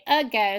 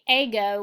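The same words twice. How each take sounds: First: The first vowel is a reduced schwa sound. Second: The first vowel is a full, unreduced vowel. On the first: The speaker calls it right. "we say ago, so we're going to put the schwa sound over there" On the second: The speaker calls it wrong. "we don't say ago"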